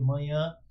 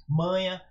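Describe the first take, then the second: First: Manhã with the nasal last syllable stressed; final-syllable stress. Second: Manha with MA stressed, ending unstressed; first-syllable stress. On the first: Teacher reading NH examples, saying manhã with stressed nasal ending. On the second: Teacher correcting his example to manha, stressing the first syllable. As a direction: say manha as MA-nha, no stressed final ã. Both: Shown as a demonstration. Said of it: "Perdão".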